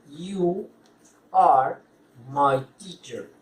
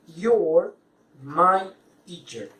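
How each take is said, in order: First: The start is two separate full words. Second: The start merges into one contracted syllable.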